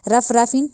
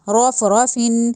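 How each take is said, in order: First: The r sounds are light. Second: The r sounds are heavy with rounded lips. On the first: The speaker calls it wrong. "नहीं कहना" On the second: The speaker calls it right. "मोटा करके पढ़ा जाएगा, रॉ को मुंह को गोल करके"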